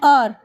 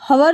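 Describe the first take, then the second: First: The starting h sound is silent. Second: The starting h sound is pronounced. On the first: The speaker calls it right. "हम लोग बोलेंगे आर" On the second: The speaker calls it wrong. "हवर नहीं बोलेंगे"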